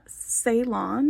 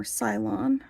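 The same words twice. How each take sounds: First: "Ceylon" said with a first syllable like "say"; alternative pronunciation. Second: "Cylon" said with a first syllable like "sigh"; alternative pronunciation. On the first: Unsure vlogger offering one reading of the finish, "Ceylon" as SAY-lon. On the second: Unsure vlogger offering a second reading of the finish, "Cylon" as SIGH-lon. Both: Shown as a demonstration. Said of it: "I don't know how you pronounce it".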